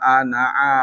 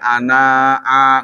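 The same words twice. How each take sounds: First: The vowel after the n is short. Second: The vowel after the n is drawn out long. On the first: The speaker calls it right. "nunnya nggak dibaca panjang" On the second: The speaker calls it wrong. "nggak boleh ana'a"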